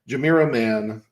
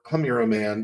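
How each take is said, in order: First: The name begins with a J sound. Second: The name begins with an H sound. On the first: "depending on if you pronounce the J" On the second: "depending on if you pronounce the J"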